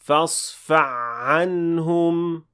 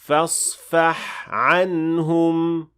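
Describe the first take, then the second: First: The ha merges into the following ayn sound. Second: The ha is clearly produced before the ayn. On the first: The speaker calls it wrong. "A mistake sounds like this" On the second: The speaker calls it right. "make sure you produce the first one clearly before moving to the next one"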